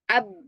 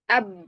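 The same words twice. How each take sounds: The two takes are said the same way.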